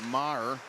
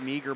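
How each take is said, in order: First: The name sounds like Maher, not meager. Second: The name sounds like the word meager. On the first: The speaker calls it right. "but Maher" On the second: The speaker calls it wrong. "Not Meager"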